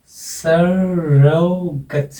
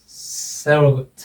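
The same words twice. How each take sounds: First: surrogate said very slowly, stress on the first syllable; slow stress demo. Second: surrogate slow, stress on सरो; stress demo. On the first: (surrogate धीरे-धीरे, पहले syllable पर ज़ोर) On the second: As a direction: model the word surrogate slowly with first-syllable stress. (Surrogate पर ज़ोर देकर धीमे उच्चारण) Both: Shown as a demonstration. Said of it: "passionate, तीन सिलेबल है".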